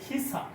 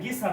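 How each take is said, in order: First: The word begins with a breathy k sound. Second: The word begins with a voiced g sound. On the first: The speaker calls it right. "এটা হচ্ছে খিসা" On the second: The speaker calls it wrong. "তাহলে এটা গিসা না"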